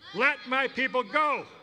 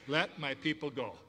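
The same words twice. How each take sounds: First: It is said with more force and energy. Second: It is said at a plain, moderate energy. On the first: "Can you say it with just a little more gusto?" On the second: "Can you say that with me?"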